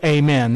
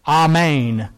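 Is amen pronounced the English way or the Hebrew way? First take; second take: English; Hebrew. First: The word has an English pronunciation. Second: The word has a Hebrew pronunciation. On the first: "That's the English way of saying it" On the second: "Amen is the Hebrew"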